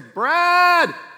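The name is called in a friendly, asking tone. She needs help with something. "And I know immediately, oh, she needs my help with something"

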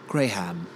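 It is said in an English accent.

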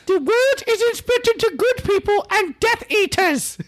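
It is said in an imitation of Dobby.

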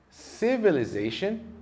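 It is said with an American accent. "Nos Estados Unidos, palavras que terminam dessa forma são pronunciadas assim"

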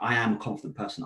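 It is said firmly, with real conviction.

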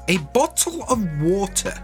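It is said in a stereotyped posh British accent.

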